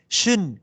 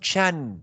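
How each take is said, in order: First: The syllable is pronounced like 'shin'. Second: The syllable is pronounced like 'shan'. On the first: The speaker calls it right. "Shin. It's not" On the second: The speaker calls it wrong. "It's not shan"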